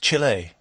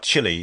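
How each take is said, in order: First: It is said with a Spanish pronunciation. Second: It is said with an English pronunciation. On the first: This is how people in that country say the name. "He's always like, no, it's" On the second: This is how the speaker says the name. "I always go, oh"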